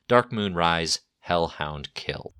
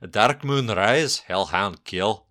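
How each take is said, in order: First: It is said in a plain accent. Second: It is said in a Scottish accent.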